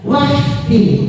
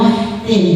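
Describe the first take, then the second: First: The consonant before the t is raspy and throaty. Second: The consonant before the t is a smooth h. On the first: The speaker calls it right. "Kalau kho gerok" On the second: The speaker calls it wrong. "jangan wahtim"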